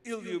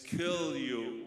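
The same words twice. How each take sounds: First: The first word is said without its K sound. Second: The first word is said with its K sound. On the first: The speaker calls it wrong. "You said I shouldn't say the K" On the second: The speaker calls it right. "It's kill you with the knife"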